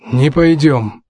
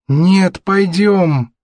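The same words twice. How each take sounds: First: Lightly voiced father refusing; a firm, falling no; curt refusal. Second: Higher, stubborn son's voice; whiny-kid insistence, pitched up. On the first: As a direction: put the son off firmly. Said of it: "бросил Саймон". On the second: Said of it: "упрямо повторил Натан". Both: A narrator's reading.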